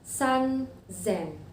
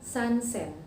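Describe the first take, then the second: First: The second word starts with a z sound. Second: The second word starts with an s sound. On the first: The speaker calls it right. "Ada teng-tengnya atau dibaca Z" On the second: The speaker calls it wrong. "Jadi bukan san sen"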